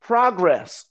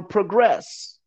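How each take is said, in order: First: "progress" said PRAH-gress, stress on the first syllable; "progress" as the noun, PRAH-gress with an open ah; first pronunciation. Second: "progress" said pruh-GRESS, stress on the second syllable; "progress" as the verb, weak pruh then a strong GRESS; second pronunciation. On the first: Explaining his seven Ps to the host, "progress" said PRAH-gress. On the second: Explaining his seven Ps to the host, "progress" said pruh-GRESS. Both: Shown as a demonstration. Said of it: "progress or progress".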